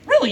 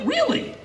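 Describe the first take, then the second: First: Said in the usual way. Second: Really? jumping far higher in disbelief; sarcastic shock, Really? way up high; incredulous. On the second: Acted. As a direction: say Really? as a mocking incredulous squeak. Incredulous rhetorical question.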